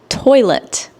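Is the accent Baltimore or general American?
general American. It is said in a general American accent. "instead of toilet"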